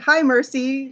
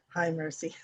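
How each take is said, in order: First: The greeting sounds bright and cheerful. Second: The greeting sounds subdued and downbeat.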